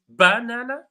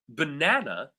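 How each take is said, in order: First: The stress is on the first syllable. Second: The stress is on the second syllable. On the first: "the stress falls on the first syllable" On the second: "second syllable"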